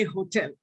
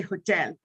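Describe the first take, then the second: First: "hotel" said HO-tel, weight on the first syllable; Indian stress on hotel. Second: "hotel" said ho-TEL, weight on the second syllable; careful British stress. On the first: Teacher showing how students say it: "hotel" stressed first syllable. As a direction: lean on the front of "hotel", the everyday Indian way. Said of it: "All of us say hotel". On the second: Teacher showing the careful version: "hotel" stressed on second syllable. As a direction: land on the end of "hotel", the particular way. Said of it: "Some of us are very particular". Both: Shown as a demonstration.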